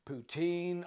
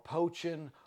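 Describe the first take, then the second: First: The first vowel is 'oo' as in moon. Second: The first vowel is 'oh' as in poach.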